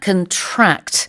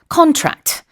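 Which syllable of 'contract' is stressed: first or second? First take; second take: second; first. First: The stress is on the second syllable. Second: The stress is on the first syllable. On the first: It means to catch a disease. "the stress is on the second syllable" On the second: It means a signed agreement. "강세가 첫 번째 syllable에 있죠"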